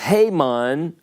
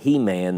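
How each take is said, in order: First: The name does not sound like 'He-Man'. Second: The name sounds like the word 'He-Man'. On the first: The speaker calls it right. "It's Haman" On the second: The speaker calls it wrong. "Some of y'all pronounce that He-Man"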